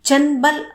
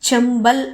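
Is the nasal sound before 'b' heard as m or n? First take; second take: n; m. First: The nasal before b sounds like n. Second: The nasal before b sounds like m. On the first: The speaker calls it wrong. "చంబల్ అనడంలా, అంటే నా sound రావడంలా" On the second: The speaker calls it right. "చంబల్ అంటున్నా, అంటే మా sound వస్తుంది"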